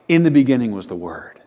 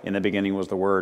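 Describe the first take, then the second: First: It is told in a lively, expressive voice. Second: It is read in a flat, even voice. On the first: "It sounds a little bit more like" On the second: "it no longer sounds like"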